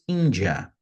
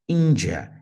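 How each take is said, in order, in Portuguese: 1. A palavra é dita com pronúncia portuguesa. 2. A palavra é dita com pronúncia portuguesa.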